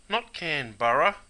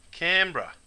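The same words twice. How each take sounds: First: "Canberra" with every syllable spelled out, can-BER-ra; the wrong way. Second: Canberra as "Canbra", second syllable swallowed; the right way. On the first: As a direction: stretch "Canberra" into three full syllables. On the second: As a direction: say "Canberra" short, two beats, CAN-bra. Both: Shown as a demonstration.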